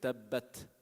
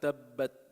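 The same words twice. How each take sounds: First: The final t is released with audible air. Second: The final t is held with no air. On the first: The speaker calls it right. "When you pronounce when you give hams, then you hear it" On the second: The speaker calls it wrong. "you don't hear ta"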